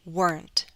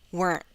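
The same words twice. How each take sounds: First: The final T is fully released. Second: The final T is a glottal stop. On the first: "let me read it first with a true T" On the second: "now I'll use a glottal stop"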